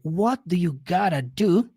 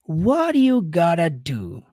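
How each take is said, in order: First: Each word is said fully and separately. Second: The words are run together in reduced form.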